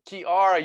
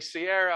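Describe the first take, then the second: First: The name begins with a k sound. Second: The name begins with an s sound. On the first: The speaker calls it right. "It's Kiara" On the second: The speaker calls it wrong. "I always say Sierra. I'm so sorry"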